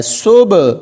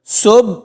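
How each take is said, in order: First: صبح with the final b released open, echoing; open qalqalah. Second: صبح cut short on a shut b, no bounce; closed final b. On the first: Teacher correcting the reading, final b left open. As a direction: let the b of صبح bounce open. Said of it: "آواز کو کھلا چھوڑنا ہے". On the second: Teacher warning learners how not to read it, b shut. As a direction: stop صبح dead on closed lips. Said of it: "ایسے نہیں پڑھنا". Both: Shown as a demonstration.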